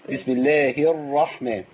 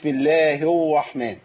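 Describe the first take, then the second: First: The r is pronounced as a true r. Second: The r is pronounced like a w. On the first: The speaker calls it right. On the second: The speaker calls it wrong.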